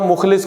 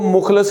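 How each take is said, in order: First: The last syllable has an 'i' vowel. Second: The last syllable has an 'a' vowel. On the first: The speaker calls it right. "मुखलिस को" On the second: The speaker calls it wrong. "मुखलस ही पढ़ते हैं... जो कि गलत है"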